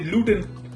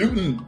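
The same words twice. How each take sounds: First: The middle T is pronounced clearly. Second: The middle T is swallowed like a catch.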